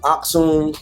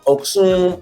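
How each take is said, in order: First: The name begins with an 'ah' vowel. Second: The name begins with an 'oh' vowel. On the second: This is how African speakers say it. "I had two African people like Oksum"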